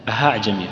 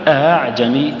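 First: The second hamza is replaced by a breathy h. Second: The second hamza is softened, voiced, without an h. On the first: The speaker calls it wrong. "بعض الناس يخطئ فيها المسهلة وينطقها هاء" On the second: The speaker calls it right. "تجد لها أثر في الصدر"

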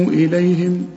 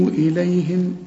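Both takes have the same delivery.

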